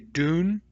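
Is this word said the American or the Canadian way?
American. The word is said with an American pronunciation. "I grew up in the United States, I say dune"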